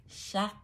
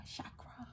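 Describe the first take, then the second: First: Said in the usual way. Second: Chakra whispered under the breath; a soft whispered echo. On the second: Shown as a demonstration. Whispered repeat of word.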